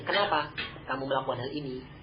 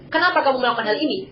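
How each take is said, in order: First: It is asked as a genuine, curious question. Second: It is asked as a reproachful rebuke.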